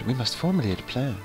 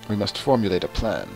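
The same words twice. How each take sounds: First: The voice is pitched lighter, less deep. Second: The voice is pitched very deep. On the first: The speaker calls it right. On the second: The speaker calls it wrong.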